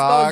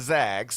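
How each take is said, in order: First: The vowel sounds like the o in dog. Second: The vowel sounds like the a in cat. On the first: The speaker calls it wrong. "They're not the Zogs" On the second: The speaker calls it right. "they're the Zags"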